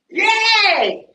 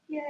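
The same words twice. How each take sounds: First: The word is said excitedly, with strong emotion. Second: The word is said flatly, without strong emotion. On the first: It shows an exclamation point. "strong emotion" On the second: It is just the plain word. "if I just see this word"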